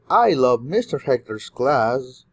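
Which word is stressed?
Hector's. The word Hector's carries the main stress. This class is loved above other classes. "you love a lot of classes, but especially mister Hector's class"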